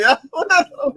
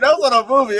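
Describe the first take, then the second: First: High, fast and laughing. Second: Said in the usual way. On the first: Shown as a demonstration. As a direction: laugh the line out again. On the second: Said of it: "that was not on a movie".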